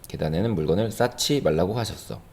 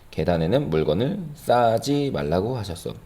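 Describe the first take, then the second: First: The word is said as aspirated ssachi. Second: The word is said as plain ssaji. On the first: The speaker calls it right. "두 번째는 싸치라고 발음을 했습니다" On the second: The speaker calls it wrong. "첫 번째는 싸지라고 발음했고요"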